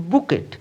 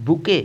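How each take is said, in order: First: বুকেট with the final T sounded; wrong বুকেট, T sounded; wrong pronunciation. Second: বুকে said "boo-kay" with a silent T; correct pronunciation. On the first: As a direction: mistaken বুকেট, T at the end. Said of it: "এর সঠিক উচ্চারণ হবে বুকে". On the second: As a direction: say the right বুকে with no T. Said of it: "এখানে টি silent". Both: Shown as a demonstration.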